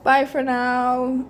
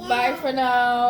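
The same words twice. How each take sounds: First: Even slower bye for now; slower goodbye. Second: Drawn-out bye for now; slow goodbye. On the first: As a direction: stretch it out for the camera. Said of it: "They're not seeing you". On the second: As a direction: say it slowly to camera. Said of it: "do you wanna say bye". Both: Real, not acted.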